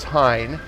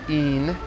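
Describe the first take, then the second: First: The name is said the British way. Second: The name is said the French way. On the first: The speaker calls it right. "but it's Hine" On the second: The speaker calls it wrong. "The French pronounce it Ine"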